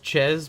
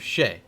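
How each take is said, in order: First: The name ends with a z sound. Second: The name ends with a vowel sound. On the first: This is how the team itself says it. The speaker calls it right. "you just tell me that it's supposed to be pronounced Ches?" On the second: This is how broadcasters have been saying it. The speaker calls it wrong. "they keep telling me it's House of Shea"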